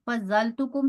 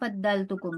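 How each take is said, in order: First: The first word is said with a z sound. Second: The first word is said with a d sound. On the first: "फजल तुकुम भी पढ़ सकते हैं" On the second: "फद्दल तुकुम भी पढ़ सकते हैं"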